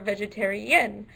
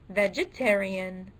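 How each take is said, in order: First: The stress is on the fifth syllable. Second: The stress is on the second syllable. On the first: "or fifth" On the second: "the second syllable"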